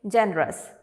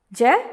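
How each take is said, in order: First: Said in the usual way. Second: "Generous" broken into three separate beats; syllable by syllable. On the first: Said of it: "How do you pronounce this word?". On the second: Shown as a demonstration. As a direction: say "Generous" as ge, ne, rous with long gaps. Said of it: "How many syllables?".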